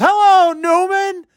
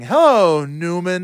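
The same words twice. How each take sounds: First: Very high, drawn-out call from the audience; mock heckler yell. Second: Lightly imitated comic catchphrase, far less shrieky; Jerry Seinfeld. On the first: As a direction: imitate a fan yelling across rows, slow and high. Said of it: "a few rows away just yells". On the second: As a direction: deliver the catchphrase with a measured build, lightly acted. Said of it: "as Jerry Seinfeld is saying".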